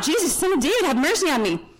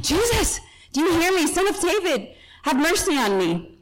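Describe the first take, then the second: First: High-pitched retold call, easing down at the end; mock yell. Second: High, urgent retold cry, little added volume; more fired-up yell. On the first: Blind beggar calling to Jesus for mercy, mild mock yell. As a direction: call out for mercy, without much added volume. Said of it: "he starts yelling out". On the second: Blind beggar calling out harder to Jesus, fired-up mock yell. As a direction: plead over a crowd, pitch jumping up then easing. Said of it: "He yells out even more".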